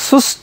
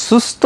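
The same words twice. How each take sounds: Both takes have the same delivery.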